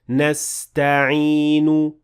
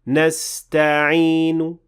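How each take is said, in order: First: The final u vowel is fully pronounced. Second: The final u vowel is barely audible. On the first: The speaker calls it wrong. "Now this is a full dhamma" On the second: The speaker calls it right. "there is a very slight dhamma at the end"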